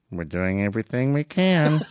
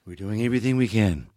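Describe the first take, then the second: First: Imitated first lady feeding a line; mock stage prompt from the wife; Nancy Reagan. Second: President parroting his prompt, lower; lightly imitated Reagan, pleased to have his line; Ronald Reagan. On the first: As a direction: prompt him discreetly in a put-on voice. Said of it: "And Nancy's, like, one foot away". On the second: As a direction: repeat the fed line in a lower voice. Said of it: "he goes".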